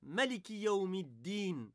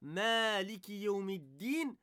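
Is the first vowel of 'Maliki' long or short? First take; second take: short; long. First: The first A of Maliki is kept short. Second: The first A of Maliki is drawn out long. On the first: "c'est-à-dire qu'on n'allonge pas le A" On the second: "au lieu de dire"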